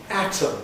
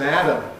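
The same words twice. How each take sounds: First: The middle consonant is a clear t. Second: The middle consonant sounds like a d. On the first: "as I would say it" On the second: "Both of them are Adam"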